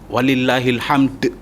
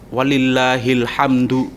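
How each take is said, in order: First: The final word ends with a bounced d sound. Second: The final word ends with a du syllable. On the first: "Paling tidak ada qalqalahnya. itu mending" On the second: "harokatnya dibaca walillahil hamdu, itu yang betul"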